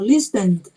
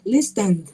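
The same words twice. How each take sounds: No difference in how they are said.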